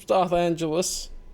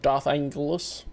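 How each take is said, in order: First: The name begins like the word 'angel'. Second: The name begins like the word 'angle'. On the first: The speaker calls it right. "It's literally spelled angel" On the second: The speaker calls it wrong. "it's not an angle"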